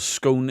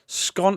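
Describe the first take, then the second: First: The vowel rhymes with 'own'. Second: The vowel rhymes with 'gone'. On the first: "as in own" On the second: "as in gone"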